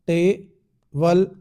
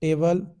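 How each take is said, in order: First: "table" split before the consonant, टे, pause, बल; divided into syllables. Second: Said in the usual way. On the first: Shown as a demonstration. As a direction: say "table" slowly as two separate beats, टे - बल. ("Table" को धीरे-धीरे दो हिस्सों में तोड़कर, टे - बल) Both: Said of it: "consonant से पहले डिवाइड होता है".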